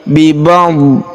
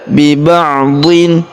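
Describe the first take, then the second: First: The word stops sharply on the d sound. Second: The word ends with an added n sound. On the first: The speaker calls it right. "tapi bi ba'd" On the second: The speaker calls it wrong. "bukan dibaca"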